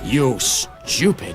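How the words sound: It is said in a harsh authoritarian voice.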